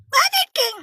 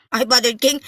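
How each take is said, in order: First: Very high, squeezed call; pinched squeaky voice. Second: Said in the usual way. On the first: Pretend. Host hailing a viewer by nickname, pinched squeaky voice. Squeaky take, then usual voice.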